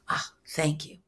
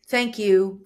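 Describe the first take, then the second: First: It is said warmly, with deep, rooted feeling. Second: It is said plainly, without much feeling.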